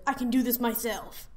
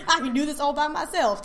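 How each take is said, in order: First: Sassy woman voice. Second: Louder, higher sassy voice through laughter; hammed-up diva, laughing at the line; sassy woman voice. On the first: Retold or imitated.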